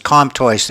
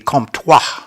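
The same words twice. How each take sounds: First: The name is pronounced with English sounds. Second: The name is pronounced with French sounds. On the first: "the Anglican pronunciation is" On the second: "In French, it would be"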